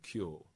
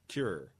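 First: The vowel is smoothed into the 'force' vowel. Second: The vowel has a North American pronunciation. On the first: "the only way you really get away with that is by shifting it over into north and force and saying kyul" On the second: "In a lot of North American English"

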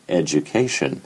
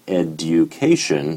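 First: The d and y merge into a j sound. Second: The d is followed by a separate y sound. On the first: This is the form after the change. "education becoming education" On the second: This is the older form before the change. "education becoming education"

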